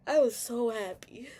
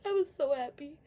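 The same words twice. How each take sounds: First: Said in the usual way. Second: Higher, crying happily; happy tears breaking through; tearful. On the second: Real, not acted. Telling viewers about her dad, happy crying. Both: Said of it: "happy tears".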